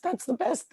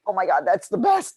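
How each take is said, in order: First: Much higher, softer squeal of "That's the best"; high delighted repeat. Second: Bright, louder burst of delight; excited exclamation. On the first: Echoing her own delight at the story, high giddy squeal. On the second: Retelling her delight at the journalist's remark, excited exclamation. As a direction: gush like you just heard great news. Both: Retold or imitated. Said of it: "And I was like".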